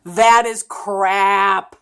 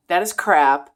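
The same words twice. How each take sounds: First: THAT IS CRAP stretched out slow, loud and high; loud, drawn-out emphasis on "that is crap"; emphatic. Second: "That is crap" said firmly and louder, without dragging it out; loud, compact emphasis on "That is crap"; emphatic restatement. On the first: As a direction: hit "that is crap" hard, dragging out each word. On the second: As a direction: restate "That is crap" as a short, firm verdict. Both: Real, not acted. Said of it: "say with emphasis".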